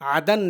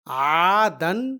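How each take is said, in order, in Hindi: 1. पहला स्वर छोटा है। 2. पहला स्वर लंबा खींचा जाता है। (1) "अगर यहाँ से अलिफ को हटा दिया जाए तो इसे हम अ पढ़ेंगे" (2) "आ की आवाज को आ पढ़ना है"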